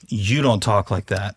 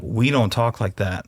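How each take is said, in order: First: Slow line leaning on "You"; stress on You. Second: Slow line leaning on "We"; stress on We. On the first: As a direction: point the weight at "You". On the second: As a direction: put the weight on the inclusive "We". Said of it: "I like what you were saying of". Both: Shown as a demonstration.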